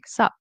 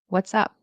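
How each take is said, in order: First: Only a short 'sup' is said. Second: Both words are said in full.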